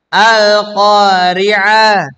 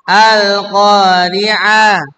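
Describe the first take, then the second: The two takes are said the same way.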